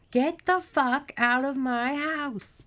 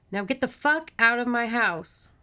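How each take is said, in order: First: Slow, high yell, word by word; furious shout. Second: Loud, high, emphatic command; angry order. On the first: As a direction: draw out every word of a raging order. Margaret roars back at monster. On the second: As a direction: order an intruder out firmly. Margaret orders the monster out. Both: A narrator's reading.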